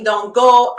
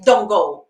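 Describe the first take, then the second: First: Louder, disbelieving echo question; arguing back. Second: A hint of an inner warning, louder; brief, louder command from intuition; little inner voice. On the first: Acted. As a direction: throw the warning back as a protest. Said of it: "I start reasoning". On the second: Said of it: "that little voice came".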